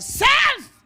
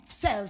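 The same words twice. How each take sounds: First: Sudden high, loud yell; explosive one-word preacher's cry; shouted call. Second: Said in the usual way. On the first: Acted. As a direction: shout it like hailing someone. Calls to self, suddenly shouting.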